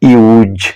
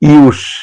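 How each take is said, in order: First: The word ends with a buzzing z sound. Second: The word ends with a hissing s sound. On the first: It is used as a verb. "যখন verb হিসেবে উচ্চারিত হবে তখন এর প্রনাউন্সিয়েশনটা" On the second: It is used as a noun. "যখন noun হিসেবে ব্যবহার হবে তখন এর প্রনাউন্সিয়েশনটা"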